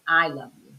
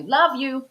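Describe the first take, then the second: First: "I love you" lower, every word said; "I love you" in full, settling lower; full declaration. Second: "Love you" tossed off short and higher; "Love you" as a brief casual sign-off; cut-off sign-off. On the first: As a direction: give all of "I love you" plainly and sincerely. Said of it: "they don't say". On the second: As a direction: say a quick, light "Love you". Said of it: "They just cut it off". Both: Retold or imitated.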